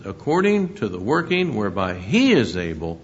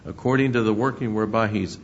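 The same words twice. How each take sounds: First: "he is able" spelled out in full, with the weight on "he"; stress on he is able. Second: Said in the usual way. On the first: Shown as a demonstration. Preacher rereading the verse to his congregation, stressing "he is". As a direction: lean on "he" and say "is" in full, not "he's". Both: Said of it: "and notice this".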